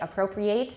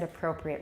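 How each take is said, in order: First: It is said as the verb form. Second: It is said as the adjective form. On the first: It means to take something for oneself. The speaker calls it wrong. "A lot of people say appropriate, and that's a verb" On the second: It means suitable. The speaker calls it right. "You said appropriate, which is correct"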